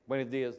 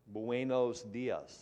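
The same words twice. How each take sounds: First: The greeting is said loosely, with relaxed sounds. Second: The greeting is said crisply, every sound enunciated. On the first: "like I might say" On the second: "he says, ... given to detail and enunciation and clarity"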